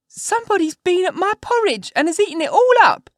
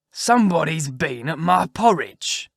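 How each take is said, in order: First: Put-on very high, loud squeaky baby-bear voice; little wee bear. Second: Slow, loud, rough big-bear voice; great rough gruff bear. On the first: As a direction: squeal it out as a tiny, outraged bear. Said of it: "in his little wee voice". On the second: Acted. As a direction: growl it out slowly as a huge bear. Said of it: "in his great rough, gruff voice".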